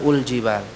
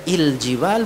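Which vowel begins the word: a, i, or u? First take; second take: u; i. First: The word begins with a u vowel. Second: The word begins with an i vowel. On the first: "bukan ul-jibal" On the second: "bukan il-jibal"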